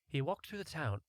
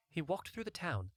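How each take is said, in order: Both takes have the same delivery.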